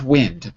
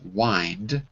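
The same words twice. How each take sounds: First: It is said like the weather word wind. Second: It is said like winding a clock. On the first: The speaker calls it wrong. "not wind" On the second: The speaker calls it right. "like you wind a mechanical clock"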